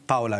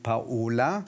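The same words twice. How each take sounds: First: "Paula" as PAU-la, stressed at the front; Italian pronunciation of Paola. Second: "Paola" as pa-O-la, stressed on the O; German pronunciation of Paola. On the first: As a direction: say "Paula" in two syllables, PAU-la. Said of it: "zu Hause hat man zu Ihnen Paula gesagt". („Paula“ italienisch betont: PAU-la) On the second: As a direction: say "Paola" in three syllables, pa-O-la. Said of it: "Ich kenne die Aussprache anders". („Paola“ deutsch betont: Pa-O-la) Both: Shown as a demonstration.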